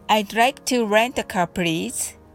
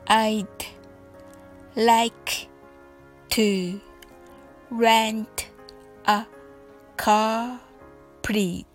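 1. この文は速く言っています。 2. この文はゆっくり言っています。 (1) "次に早く言ってみましょう。" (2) "それではゆっくりと練習してみましょう。"

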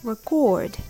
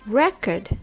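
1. 強勢は2番目の音節にあります。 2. 強勢は最初の音節にあります。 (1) "meaning you store the information" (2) "is a document with past information on it"

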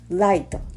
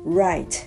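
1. Lに似た音で始まります。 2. 英語のRの音で始まります。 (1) "light っていう風に発音してしまう日本語話者って多い" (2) "右という単語right"

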